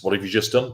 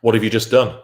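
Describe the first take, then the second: First: "done" rising softly, lightly asked; quiet rising question. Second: "done" falling and pointed; firm falling question. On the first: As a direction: ask "done" gently upward. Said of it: "Breach no contact". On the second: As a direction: land hard on "done". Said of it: "You've breached no contact". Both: Shown as a demonstration.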